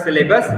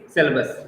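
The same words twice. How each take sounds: First: "syllabus" said sil-LAY-bus; mispronounced syllabus. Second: "syllabus" said SIL-bus; correct syllabus pronunciation. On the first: Teacher warns students off a mistake, "syllabus" as sil-LAY-bus. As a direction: put a long ay in the middle of "syllabus". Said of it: "you will pronounce it's not". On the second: Teacher gives students the right form, "syllabus" as SIL-bus. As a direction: keep the middle of "syllabus" short, no ay. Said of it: "The correct pronunciation is". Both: Shown as a demonstration.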